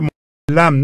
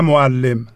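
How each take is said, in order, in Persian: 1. مصوت قبل از م پایانی 'a' است. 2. مصوت قبل از م پایانی 'i' است. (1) "معلم نه معلم" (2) "نه معلم"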